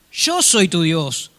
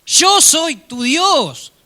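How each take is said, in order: First: Slow, measured divine statement; God speaking slowly and calmly; slow, solemn God. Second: Slow, higher and louder divine proclamation; God declaring himself slowly, high and loud; booming God. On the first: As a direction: say it slowly and gravely. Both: Acted. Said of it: "Otra vez la misma conversación".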